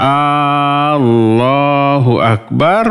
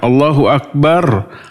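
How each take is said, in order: First: The opening a vowel is drawn out long. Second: The opening a vowel is short. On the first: It asks whether God is the greatest. The speaker calls it wrong. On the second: It states that God is the greatest. The speaker calls it right.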